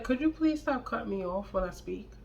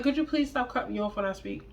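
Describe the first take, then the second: First: Soft, quiet and even, no edge at all; calm request. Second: Quiet, composed, a bit quicker; calm request. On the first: Calmly asking boyfriend to stop cutting her off, soft and steady. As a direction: ask him to stop interrupting, calm and quiet. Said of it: "Just like that". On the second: Repeating her calm request to boyfriend, quiet and composed. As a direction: keep it soft and level like nothing's wrong. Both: Retold or imitated.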